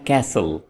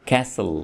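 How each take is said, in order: Both takes have the same delivery.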